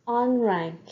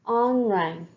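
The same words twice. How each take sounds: The two takes are said the same way.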